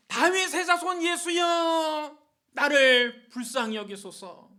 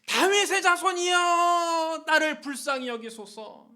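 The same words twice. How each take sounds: First: High, drawn-out shouted plea; loud cry. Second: Very loud, high, long-held plea; even louder cry. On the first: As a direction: cry out slowly for mercy at full voice. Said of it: "큰 소리로 소리를 질렀습니다". (큰 소리로 길게 부르짖기) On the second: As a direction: belt out a slow, desperate cry for mercy. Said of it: "더 크게 소리 질렀습니다". (목청껏 더 크게 부르짖기) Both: Acted.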